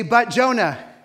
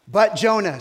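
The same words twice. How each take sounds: First: "But" punched loud again, falling on "Jonah"; stress on But. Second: "But" hit hard and loud, falling; "But Jonah" with a loud stressed "But". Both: Shown as a demonstration.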